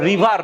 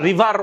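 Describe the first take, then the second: No difference in how they are said.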